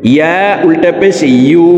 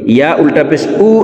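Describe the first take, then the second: First: The final vowel starts with a y-glide. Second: The final vowel starts with a glottal catch. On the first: The speaker calls it right. "ইয়ার উচ্চারণ জিহ্বার মধ্যখান থেকে পড়তে হবে" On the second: The speaker calls it wrong. "হামজার উচ্চারণ করে থাকি"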